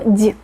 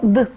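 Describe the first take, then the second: First: The consonant is soft and palatalized. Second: The consonant is hard, not palatalized. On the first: "d palatalizada, d suave" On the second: "ya no suena como d"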